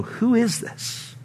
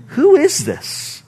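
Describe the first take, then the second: First: Soft, slow, hushed amazement; awed whisper. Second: Much higher, slow, astonished outcry; awed exclamation. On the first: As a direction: murmur it in quiet awe. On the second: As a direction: cry it out in wonder. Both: Retold or imitated. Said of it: "They looked at one another and they go".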